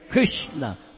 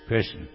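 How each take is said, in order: First: The name is called out with strong feeling. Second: The name is said flatly without feeling. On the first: The caller longs for the one being called. The speaker calls it right. "You're crying out, calling out" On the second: The name is repeated mechanically without longing. The speaker calls it wrong. "Not like this"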